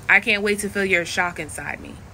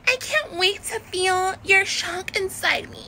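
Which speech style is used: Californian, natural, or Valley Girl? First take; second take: natural; Valley Girl. First: It is said in the speaker's natural voice. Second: It is said in an exaggerated Valley Girl style. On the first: "This is me saying it as [name]" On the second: "Like a Valley Girl will be like"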